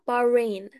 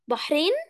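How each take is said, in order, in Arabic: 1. ما فيهوش صوت الحاء الحلقي. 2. فيه صوت الحاء الحلقي العربي. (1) "اسمها بارين" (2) "احنا كده بنقول عليها بحرين"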